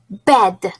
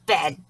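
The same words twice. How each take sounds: First: Said in the usual way. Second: Lower, softer puppet voice; quiet puppet echo. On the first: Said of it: "repeat the word after me". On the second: Shown as a demonstration. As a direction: echo "Bed." gently. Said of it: "You and Steve will repeat".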